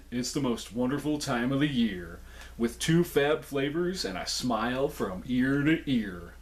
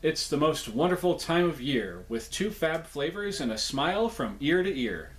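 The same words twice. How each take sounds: First: Stuffy head cold voice, slowing. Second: Said in the usual way. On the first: Shown as a demonstration. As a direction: read it blocked up with a cold. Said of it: "such a head cold type voice at the end". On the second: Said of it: "first plain read of the message".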